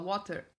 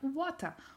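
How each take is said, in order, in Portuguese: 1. É pronunciada com sotaque não australiano. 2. É pronunciada com sotaque australiano. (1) "ele não tava acostumado a alguém falar water" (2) "Ela tava acostumada a pessoas falarem water"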